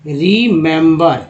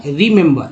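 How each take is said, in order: First: remember said slowly, every syllable clear; slow careful model. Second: Said in the usual way. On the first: Shown as a demonstration. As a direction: stretch out remember so students hear each sound. (Remember को धीरे-धीरे साफ़ बोलना) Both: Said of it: "इसका उच्चारण actually क्या हुआ".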